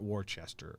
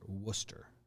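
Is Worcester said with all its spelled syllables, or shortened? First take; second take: full; shortened. First: The name is sounded out as it is spelled. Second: The name is said in a shortened local form. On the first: The speaker calls it wrong. "not Worcester" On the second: The speaker calls it right. "Mass and their dumb pronunciations"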